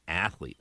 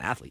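First: The two syllables are sharply separated. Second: The syllables are blurred and run together. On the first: This person is a true athlete. The speaker calls it right. "you have to say it with two very distinct syllables" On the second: This person is not a true athlete. The speaker calls it wrong. "he's not an athlete"

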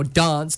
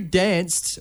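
First: It is said the South Australian way. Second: It is said the Victorian way. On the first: "or South Australia" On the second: "depending on if you're from Victoria"

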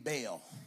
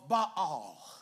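First: It is said with the Black church pronunciation. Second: It is said with the Hebrew pronunciation. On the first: "In Negro church, he Baal" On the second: "That's how you say it in real Hebrew"

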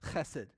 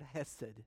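First: The first sound is a rough, throaty h. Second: The first sound is a plain, soft h. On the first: The speaker calls it right. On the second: The speaker calls it wrong.

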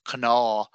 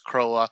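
First: It is said the Munster Irish way. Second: It is said the Ulster Irish way.

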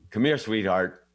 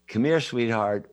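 First: It is said in a harsh, unfriendly tone. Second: It is said in a warm, gentle tone. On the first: The speaker is not being nice. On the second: The speaker is being nice.

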